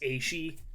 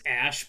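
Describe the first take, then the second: First: The name is said as two syllables. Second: The name is said as one short syllable. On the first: This is the intended pronunciation. The speaker calls it right. "but it's Aishi" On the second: This is how others commonly say it. The speaker calls it wrong. "The other one I hear all the time is Ash"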